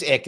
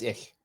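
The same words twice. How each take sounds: First: "ick" ending in a hard k; the English "ick", with a stopped final k; English pronunciation. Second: "ich" with a German soft ending; the German "ich", a fricative instead of k; German pronunciation. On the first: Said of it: "If it's English". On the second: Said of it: "If it's German, it's ich". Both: Shown as a demonstration.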